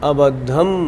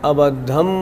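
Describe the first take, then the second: Both takes have the same delivery.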